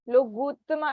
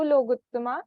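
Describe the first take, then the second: First: The vowel after the g is long. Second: The vowel after the g is short. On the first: The speaker calls it wrong. "लोगुत्तमा ऐसा नहीं" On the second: The speaker calls it right. "ग में छोटी ऊ की मात्रा है"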